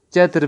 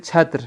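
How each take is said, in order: First: چتر with a plain unaspirated ch; Urdu pronunciation. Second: چھتر with an aspirated ch; Persian pronunciation. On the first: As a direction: say چتر the Urdu way, no puff after ch. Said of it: "ہم اردو میں تو". (چتر اردو تلفظ میں، بغیر ہوا کی چ) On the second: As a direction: say چھتر with a puff of air after ch. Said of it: "لیکن فارسی میں پڑھیں". (چھتر فارسی تلفظ میں، ہوا والی چھ کے ساتھ) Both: Shown as a demonstration.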